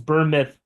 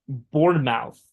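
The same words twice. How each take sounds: First: It is said the usual English way. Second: It is said as spelled, Portuguese style.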